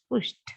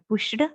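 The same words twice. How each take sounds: First: The ending is a plain t sound. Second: The ending is not a plain t sound. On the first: The speaker calls it right. "t t sound you have to get" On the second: The speaker calls it wrong. "It's not pushed"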